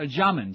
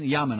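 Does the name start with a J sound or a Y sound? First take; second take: J sound; Y sound. First: The name starts with an English J sound. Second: The name starts with a Y sound. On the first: The speaker calls it wrong. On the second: The speaker calls it right.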